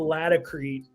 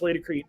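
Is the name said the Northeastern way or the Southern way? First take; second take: Southern; Northeastern. First: The name is said the Southern US way. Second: The name is said the Northeastern US way.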